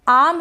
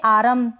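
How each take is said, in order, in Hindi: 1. r ध्वनि चुप रहती है। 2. r ध्वनि पूरी तरह बोली जाती है। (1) "आम है ये" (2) "तो ये गलत हो जाएगा"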